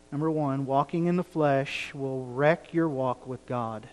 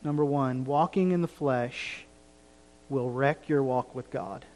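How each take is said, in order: Both takes have the same delivery.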